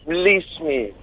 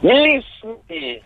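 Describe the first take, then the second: First: The words are said in a plain, flat way. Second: The words are said in an intense, passionate way. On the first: "I just like the bit where she says" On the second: "Do it again, do it with passion"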